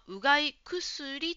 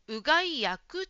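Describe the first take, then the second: First: The second part starts with a voiceless k sound. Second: The second part starts with a voiced g sound. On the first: The speaker calls it wrong. "ジムさんはうがい薬と言っていました。" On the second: The speaker calls it right. "うがい薬というのが一般的です。くではなくてぐですから"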